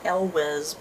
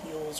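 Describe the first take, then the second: First: The name begins with an 'el' sound. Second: The name begins with a 'y' sound. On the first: "I used to pronounce it Elwes" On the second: "someone told me it was like Yules"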